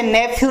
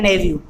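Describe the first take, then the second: First: नेफ्यू said wrongly with an f sound; wrong pronunciation. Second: नेव्यू said correctly with a v sound; correct pronunciation. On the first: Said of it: "इसे नेफ्यू नहीं बोलेंगे". (नेफ्यू का गलत उच्चारण, f के साथ) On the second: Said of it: "ये होता है नेव्यू". (नेव्यू का सही उच्चारण, v के साथ) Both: Shown as a demonstration.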